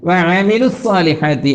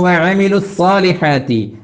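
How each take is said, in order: No difference in how they are said.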